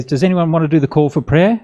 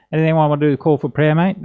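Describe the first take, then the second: First: Said in the usual way. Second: Put-on quick, broad Aussie accent; broad Australian accent. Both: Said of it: "he says in a very Aussie accent".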